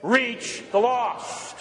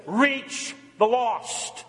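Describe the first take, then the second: First: Slow, deliberate and spaced; preacher leading the congregation in slow unison; slow call and response. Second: Drawn-out slow, each word leaned on; preacher slowing down for the congregation to repeat; slow call to repeat. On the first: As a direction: say it with them, slowly. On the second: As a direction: lead the room, say it slowly so they echo. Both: Shown as a demonstration. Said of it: "Say it".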